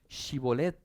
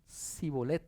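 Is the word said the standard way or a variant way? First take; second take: standard; variant. First: The word is said in its standard form. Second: The word is said with a different sound. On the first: The speaker belongs to the questioning side. The speaker calls it right. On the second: The speaker belongs to the other side. The speaker calls it wrong.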